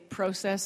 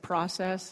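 First: The word is said the British way. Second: The word is said the American way. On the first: The speaker calls it wrong. "they sounded either too British or too Canadian. Like I would say process" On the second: The speaker calls it right. "instead of process"

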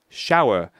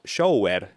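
First: The vowel sounds like 'ow'. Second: The vowel sounds like 'oh'. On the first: The speaker calls it right. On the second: The speaker calls it wrong.

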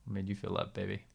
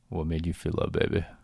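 First: It is said in a plain, ordinary way. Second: It is said in a suggestive, exaggerated way.

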